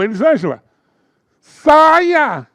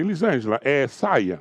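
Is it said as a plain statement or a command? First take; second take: command; statement. First: It is said as a sharp command. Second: It is said as a calm statement.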